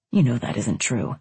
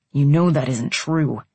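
First: Low-pitched man's line; man's reply. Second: Firm, low-pitched insistence; hard tone. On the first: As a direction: say it low, at an ordinary volume. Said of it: "he said again". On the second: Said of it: "his tone hard". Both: A narrator's reading.

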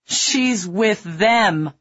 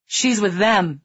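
First: Very slow, tearful, drawn out; weeping man repeating his desperate warning; slow crying plea. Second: Higher, tearful plea; crying plea. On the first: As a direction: drag it out through sobs. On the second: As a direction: beg through tears. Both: A narrator's reading. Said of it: "he was crying".

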